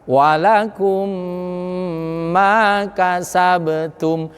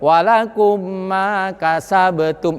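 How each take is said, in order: First: The doubled m is held long with a hum. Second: The doubled m is short, without a held hum. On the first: The speaker calls it right. "Tahan deng mem memanjangkan atau nahannya selama tiga harokat" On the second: The speaker calls it wrong. "Tidak boleh walakum ma kasabtum"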